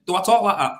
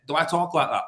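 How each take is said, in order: First: Louder, higher retold challenge; indignant challenge. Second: Said in the usual way. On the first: [name] confronting co-worker who mimicked him, indignant challenge. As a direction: throw the question back forcefully. Repeats the challenge more forcefully.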